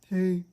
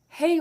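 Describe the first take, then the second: First: The greeting sounds flat and unenthusiastic. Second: The greeting sounds lively and excited. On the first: The caller is not especially welcome. "it used to be when I would call him on the cell phone, he would answer" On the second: The caller is happily welcomed. "the change in the tone of his voice and how he seems excited to hear from me"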